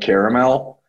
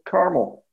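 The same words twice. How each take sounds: First: The word is said with three syllables. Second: The word is said with two syllables. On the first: "I am absolutely using the three-syllable pronunciation of caramel" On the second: "like it's in Indiana"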